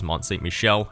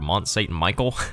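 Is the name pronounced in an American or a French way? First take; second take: French; American. First: The name is said with a French pronunciation. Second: The name is said with an American pronunciation. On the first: The speaker calls it right. "it is French, so it is Mont Saint-Michel" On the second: The speaker calls it wrong. "that's the very Americanized version of the name"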